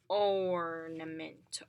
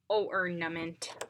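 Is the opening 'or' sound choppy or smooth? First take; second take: smooth; choppy. First: The 'or' glides smoothly as one sound. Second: The 'or' is broken into two separate parts. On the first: The speaker calls it right. "We say ornament" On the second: The speaker calls it wrong. "we don't say like ornament"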